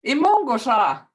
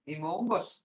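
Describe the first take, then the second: First: Imongos ah with a falling tone, loud; tone demo. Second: Imongos, soft with a rising tone; tone demo. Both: Shown as a demonstration. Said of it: "Hear the tone?".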